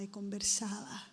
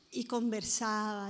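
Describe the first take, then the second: First: Y conversaba trailing off into a whisper; fading to a whisper. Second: Said in the usual way. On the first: Shown as a demonstration. Preacher fading conversaba into a whisper for the congregation. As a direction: whisper y conversaba as it fades away.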